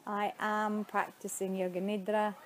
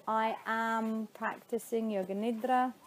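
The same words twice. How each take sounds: The two takes are said the same way.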